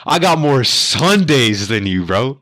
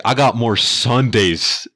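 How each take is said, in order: First: Higher, louder, slow triumphant put-down; boastful comeback. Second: Higher, louder, slow proud boast; boastful comeback. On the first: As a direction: savor the win, slowly. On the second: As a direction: lean into every word like a veteran mic drop. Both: Retold or imitated. Dad's comeback to the trucker.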